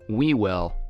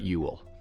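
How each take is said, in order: First: The name is sounded out phonetically. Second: The name is said in its conventional form. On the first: The speaker calls it wrong. "I made the mistake of going phonetic in pronunciation" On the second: The speaker calls it right. "but Whewell"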